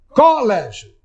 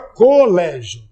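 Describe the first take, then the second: First: It is said in a Pernambuco accent. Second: It is said in a São Paulo accent. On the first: "um pernambucano, lendo-a em voz alta, diga colégio" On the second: "Um paulistano diga colégio"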